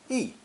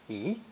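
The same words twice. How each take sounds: First: The pitch falls sharply from high to low. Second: The pitch rises from middle to high. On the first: It comes before a first or second tone syllable. "before first and second tone characters, it uses fourth tone" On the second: It comes before a fourth tone syllable. "before another fourth tone, it changes to second tone"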